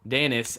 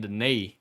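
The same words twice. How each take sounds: First: The name ends with an audible s sound. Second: The name ends in an ee sound, silent s. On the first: The speaker calls it wrong. "it's not Denis as you would say" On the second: The speaker calls it right. "it's Saint Denis, as in these knees"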